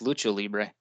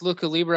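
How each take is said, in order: First: The first word has a ch sound. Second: The first word has a hard k sound. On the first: The speaker calls it right. "I always thought it's pronounced Lucha Libre" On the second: The speaker calls it wrong. "Is it pronounced Luca Libre?"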